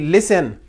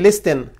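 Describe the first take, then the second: First: The t sound is silent in the middle. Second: The t sound is pronounced in the middle. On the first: The speaker calls it right. "We say listen. ... This T, is it pronounced? No" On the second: The speaker calls it wrong. "we don't say listen"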